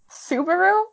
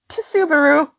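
First: The word begins with a plain s sound. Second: The word begins with a ts sound. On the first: The speaker calls it right. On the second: The speaker calls it wrong.

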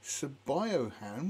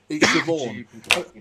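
First: It is read out letter by letter as spelled. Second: It is said as two syllables, shi-vawn. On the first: The speaker calls it wrong. "the first time I saw it, I was going" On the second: The speaker calls it right. "somebody said"

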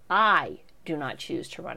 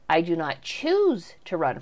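First: The word 'not' is stressed. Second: The word 'choose' is stressed. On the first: He has no intention of running again. The speaker calls it right. "Coolidge meant what he wrote, and the emphasis was on" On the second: He would still run if the people chose him. The speaker calls it wrong. "with the emphasis on choose like that"

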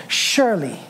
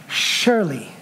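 Both takes have the same delivery.

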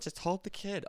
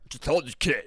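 First: It is said without the imitated character voice. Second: It is said in an imitated character voice. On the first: The speaker calls it wrong. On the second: The speaker calls it right.

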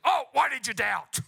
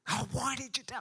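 First: It sounds condemning and rebuking. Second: It sounds longing and loving.

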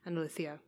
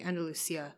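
First: The s is lisped, sounding like th. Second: The s is a plain hissing s sound. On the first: This is the northern Spanish way of saying it. "you put the lisp on the S for northern Spain" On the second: This is the southern Spanish way of saying it. "in southern Spain, it would be Andalusia"

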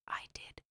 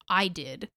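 First: It is whispered. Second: It is said aloud in full voice.

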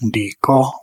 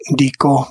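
First: The tone goes from low to mid. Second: The tone stays level at mid. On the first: The grinding is completed. "in a perfective aspect, dico, low-mid" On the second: The grinding is future or possible. "Dico, mid-mid"

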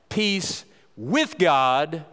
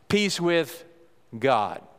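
First: The word with is stressed. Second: The word God is stressed.

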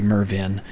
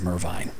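First: The name ends with a short 'vin' sound. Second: The name ends with a long 'veen' sound. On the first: The speaker calls it wrong. "I pronounce it incorrectly. I say Mervin" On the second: The speaker calls it right. "instead of Mervine"

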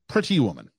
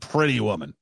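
First: Both T's are crisply pronounced, British-like. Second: The T's are slurred together, North American-like.

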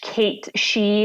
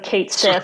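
First: The second word is said like 'shee'. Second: The second word is said like 'sith'. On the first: This is the Scottish way of saying it. "if you're a snob, it's a Scottish Kate She" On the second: This is the American way of saying it. "we're American, so Kate Sith"

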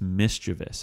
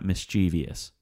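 First: The word has three syllables, no extra vowel. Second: The word has four syllables, with an extra vowel. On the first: The speaker calls it right. "There's no E after the V there" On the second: The speaker calls it wrong. "It's not mischievous. We're taking liberties there by throwing another E in"

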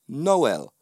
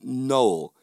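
First: The name does not sound like 'no'. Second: The name sounds like the word 'no'. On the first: The speaker calls it right. "That would be the Jamaican pronunciation. I'll say it again" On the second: The speaker calls it wrong. "I dislike that name, Noel, because it's not my name"

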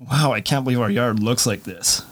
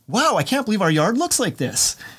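First: It sounds disgusted and dismayed. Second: It sounds delighted and impressed.

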